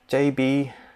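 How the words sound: It is said in a Hong Kong English accent. "In Hong Kong, they call it me as"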